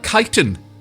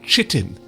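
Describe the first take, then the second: First: It begins with a hard K sound. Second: It begins with a soft CH sound. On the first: The speaker calls it right. "the correct way of saying something like um, uh, chitin is that" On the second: The speaker calls it wrong. "not chitin"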